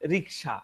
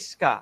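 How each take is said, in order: First: The k comes before the s: riksa. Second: The s comes before the k: riska. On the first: The speaker calls it right. "আসলে উচ্চারণটা হচ্ছে রিক্সা" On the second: The speaker calls it wrong. "আমাদের common কিছু mistake"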